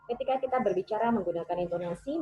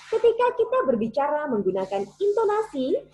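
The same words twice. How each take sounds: First: The pitch stays flat with little variation. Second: The pitch moves lively between high and low. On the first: The speaker calls it wrong. "Itu saya menggunakan tone-nya agak sedikit flat" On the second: The speaker calls it right. "kita coba masukkan variasi intonasi dalam teks ini"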